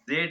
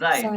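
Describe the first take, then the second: First: The vowel sounds like 'ay'. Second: The vowel sounds like 'eye'. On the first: The speaker calls it wrong. "जेड नहीं" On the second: The speaker calls it right. "नहीं जाइड"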